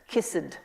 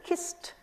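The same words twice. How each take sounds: First: The ending adds an extra syllable. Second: The word is said as one syllable. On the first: The speaker calls it wrong. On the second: The speaker calls it right.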